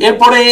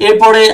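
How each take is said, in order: The two takes are said the same way.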